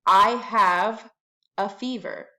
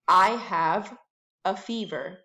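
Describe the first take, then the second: No difference in how they are said.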